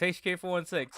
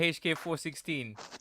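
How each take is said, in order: First: The number is said digit by digit. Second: The number ends with the word sixteen. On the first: The speaker calls it right. "It's a four one six" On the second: The speaker calls it wrong. "not the H K four sixteen"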